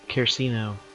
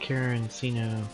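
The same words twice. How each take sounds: First: The word is said without an extra N sound. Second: The word is said with an extra N sound. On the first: The speaker calls it right. "I guess that's how you pronounce it" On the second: The speaker calls it wrong. "I don't know why I'm putting the N in there every single time"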